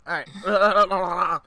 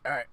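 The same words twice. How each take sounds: First: Higher, louder put-on voice; put-on character voice. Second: Said in the usual way. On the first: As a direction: try out a character voice. Trying out a new character voice.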